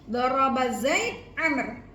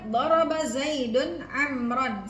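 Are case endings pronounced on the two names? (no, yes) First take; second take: no; yes. First: The names end without any vowel endings. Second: The names end with full vowel endings. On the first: It is unclear who hit whom. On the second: Zaid hit Amr.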